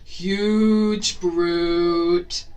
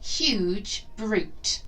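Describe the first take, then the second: First: It is said in a loud, deep voice. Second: It is said in a normal speaking voice.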